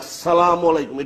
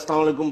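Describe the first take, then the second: First: It is said with strong, heavy emphasis. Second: It is said plainly, without special force.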